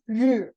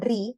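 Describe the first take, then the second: First: It ends in a buzzed 'r' sound. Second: It ends in a clear 'ee' vowel. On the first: The speaker calls it right. "tapi r" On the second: The speaker calls it wrong. "Ini bacanya bukan ri"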